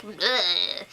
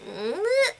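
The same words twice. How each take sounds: First: Low grunt of disdain; imitated unimpressed "bleh", pitched down; Mary. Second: High rising noise of reluctance; imitated doubtful "bleh", pitched up; Robert. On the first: Mary reacting to the adoption, low dismissive noise. Mimicking Mary's mixed reaction. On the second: Robert reacting to the adoption, high uncertain noise.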